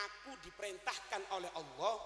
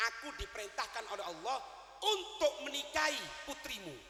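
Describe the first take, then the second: First: Said in the usual way. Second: "aku diperintahkan oleh Allah" said slowly, leaning on "Allah" with a rise; slow emphatic quote. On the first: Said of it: "tanda kutip ya, perhatikan". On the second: Shown as a demonstration. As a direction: mark "Allah" and stretch "untuk menikahi putrimu".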